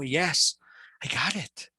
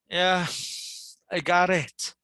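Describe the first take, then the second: First: The voice sounds amazed and eager. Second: The voice sounds tired and sleepy. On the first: The listener is eager to learn. "Someone might be amazed or someone might be might be willing to learn" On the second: The listener is willing but tired. "Someone might be sleepy"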